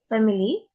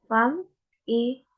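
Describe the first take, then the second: First: Said in the usual way. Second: "family" slowly broken into fam, i, ly; syllable by syllable. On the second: Shown as a demonstration. Student showing pitch in an example word, slowly syllable by syllable. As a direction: draw out "family" with pauses between syllables.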